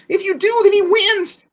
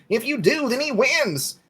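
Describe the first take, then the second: First: It is said in an anime girl voice. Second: It is said in a first-try character voice.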